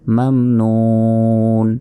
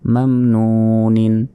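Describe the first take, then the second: First: The word stops on a bare final consonant. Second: The word ends with a final -in syllable. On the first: The reader pauses at this word. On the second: The reading continues without stopping.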